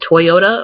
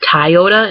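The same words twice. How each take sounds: First: Toyota is said in the standard way. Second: Toyota is said in the Michigan way. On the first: "instead of Toyota" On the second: "a lot of Michiganders say Toyota"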